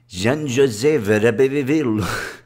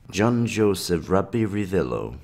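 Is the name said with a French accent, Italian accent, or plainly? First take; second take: Italian; plainly. First: The name is said with an Italian accent. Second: The name is said without a put-on accent.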